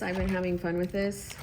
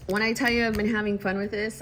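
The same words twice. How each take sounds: First: Said in the usual way. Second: "when I tell you I've been having fun with this" pushed louder and faster; emphatic. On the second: Shown as a demonstration. Vlogger hyping her planner to viewers, emphatic. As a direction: build it up with a rush of energy.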